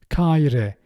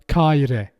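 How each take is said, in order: First: The middle h sound is left out. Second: The same.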